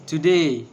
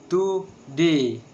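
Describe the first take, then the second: First: Said in the usual way. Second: Today drawn out as to-day, second beat stressed; slower, syllables apart. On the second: Shown as a demonstration. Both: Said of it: "And the two syllables".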